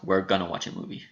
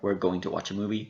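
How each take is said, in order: First: Going to is reduced to a short gonna. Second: Going to is said in full, two clear words.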